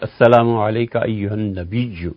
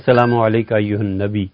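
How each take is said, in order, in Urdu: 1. نبی میں y کی آواز کھنچی ہوئی اور دوہری ہے۔ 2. نبی میں y کی آواز مختصر اور اکہری ہے۔ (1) "تشدید کے ساتھ پڑھنا چاہیے" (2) "سب پڑھتے ہیں"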